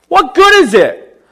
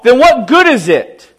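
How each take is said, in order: First: Slower, louder and higher on good; emphatic repeat. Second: Said in the usual way. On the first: Shown as a demonstration. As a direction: hammer the question home.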